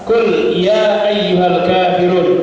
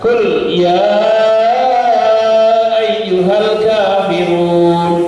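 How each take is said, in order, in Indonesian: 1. Vokal 'ya' dibaca panjang dua harakat. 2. Vokal 'ya' dibaca panjang enam harakat. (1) "dua harokat" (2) "lima sampai enam harokat"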